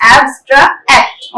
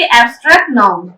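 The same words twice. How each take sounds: First: एब्स्ट्रैक्ट broken into abs, tra, act; syllable by syllable. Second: Said in the usual way. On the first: Shown as a demonstration. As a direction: teach एब्स्ट्रैक्ट in three separated chunks, abs - tra - act. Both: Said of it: "ये जो मैं break कर करके बोल रही हूँ ना".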